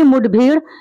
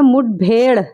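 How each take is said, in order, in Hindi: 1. आखिरी स्वर लंबा 'ee' है। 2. आखिरी स्वर लंबा 'e' है। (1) "तो ये गलत तलफ़्फ़ुज़ है" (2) "सही तलफ़्फ़ुज़ क्या है"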